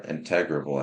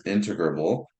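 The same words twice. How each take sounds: First: InTEGrable, stressed on the second syllable; alternative pronunciation. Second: INtegrable, stressed on the first syllable; first pronunciation. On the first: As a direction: say integrable as in-TEG-ruh-bul. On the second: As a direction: say integrable as IN-tuh-gruh-bul. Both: Shown as a demonstration. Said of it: "I've heard it both ways".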